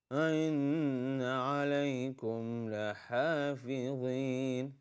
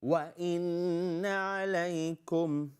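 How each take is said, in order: First: Slow chant, "إن" without a clear lip-rounded w; mispronounced recitation demo. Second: Higher slow chant, "وإن" opening on a rounded w; clearly articulated recitation. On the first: Teacher showing a student's slip, slow chant with weak w before "إن". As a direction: chant "إن عليكم لحافظين" with the opening w left weak. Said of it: "but not good pronunciation". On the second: Teacher correcting pronunciation, higher chant with clear w on "وإن". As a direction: round the lips firmly to start "وإن عليكم". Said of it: "you should not pronounce wow".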